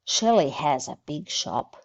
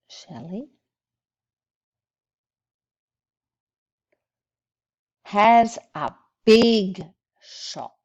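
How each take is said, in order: First: The sentence is read at a fast pace. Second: The sentence is read at a slower pace.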